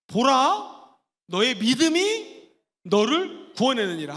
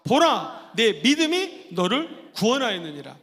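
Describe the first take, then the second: First: Loud, slow proclamation of 보라; proclaiming. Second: Loud 보라, stronger declaration; proclaiming again. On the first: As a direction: announce it with authority. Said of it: "시작". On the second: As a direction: say it once more with force. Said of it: "한 번 더 보라부터 시작". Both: Shown as a demonstration.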